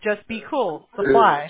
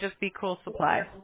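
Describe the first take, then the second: First: The words are separated by small pauses. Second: The words run together without pauses. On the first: It sounds like the name of a supply store. The speaker calls it wrong. "I said it more like separated" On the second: It sounds like one name. The speaker calls it right. "When you say it like that, ... when you say it all together, it sounds better"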